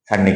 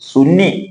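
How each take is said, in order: First: The name is said with an 'uh' vowel. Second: The name is said with an 'oo' vowel. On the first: "സായിപ്പ് വായിക്കുന്നത് പോലെ വായിച്ചാലോ" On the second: "ശുദ്ധ മലയാളത്തിൽ ഉച്ചരിച്ചാൽ ശരിക്കും സുന്നി എന്ന് ഉച്ചരിക്കാൻ പറ്റും"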